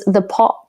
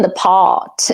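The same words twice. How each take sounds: First: "the pot" with a clipped upper-class vowel; sophisticated "the pot". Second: Said in the usual way. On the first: Retold or imitated. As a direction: say "the pot" like a refined New England mother. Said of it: "It was very sophisticated". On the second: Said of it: "Well, it wasn't the pot".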